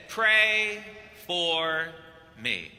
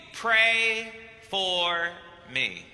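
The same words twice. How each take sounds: First: Deep Argentinian voice. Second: Lightly voiced Argentinian accent, dropping low on me; a hint of a deep Argentinian accent, fading at the end. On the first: Retold or imitated. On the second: The Pope asking a priest for prayer, lightly Argentinian accented. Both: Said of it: "in that deep Argentinian voice in English".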